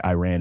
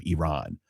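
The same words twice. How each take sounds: First: "Iran" said as eye-RAN; "Iran" the American way, eye-RAN; Anglicised pronunciation. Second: "Iran" said as ee-RON; "Iran" with a long second vowel, ee-RON; native-style pronunciation. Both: Shown as a demonstration. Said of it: "we can say Iran instead of Iran".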